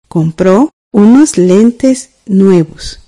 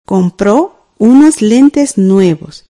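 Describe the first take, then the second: First: Very slow, each word spaced for writing down; teacher rereading the sentence for students to check, very slowly; slow dictation. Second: Very slow, each word spaced for writing down; teacher dictating the sentence for students to write, very slowly; slow dictation. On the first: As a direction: dictate it again slowly so students can check their copy. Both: Shown as a demonstration. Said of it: "escribamos la oración".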